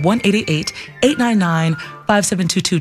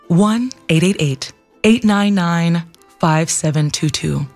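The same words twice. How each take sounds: First: The number is said fast. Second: The number is said slowly.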